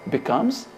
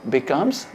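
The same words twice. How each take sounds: Both takes have the same delivery.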